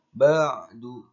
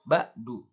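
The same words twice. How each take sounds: First: The middle consonant is a clear throaty ain. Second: The middle consonant is a plain glottal stop. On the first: The speaker calls it right. "harus dibaca ain dengan jelas" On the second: The speaker calls it wrong. "Tidak boleh diganti dengan hamzah. ... itu salah"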